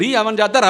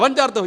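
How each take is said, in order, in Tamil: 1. இரண்டு வார்த்தைகளும் தனியாக, மெதுவாகச் சொல்லப்படுகின்றன. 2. இரண்டு வார்த்தைகளும் சேர்ந்து ஒன்றாக ஓடுகின்றன. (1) "ரீ அவஞ்சார்த்தன்னு நிறுத்தி நிதானமா சொல்லுங்க" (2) "ரவஞ்சார்த்தன்னு சொல்லாதீங்க"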